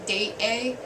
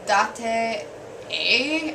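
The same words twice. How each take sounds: First: It is pronounced with English-style sounds. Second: It is pronounced with Japanese-style sounds. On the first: "in the English way" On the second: "in the Japanese sense"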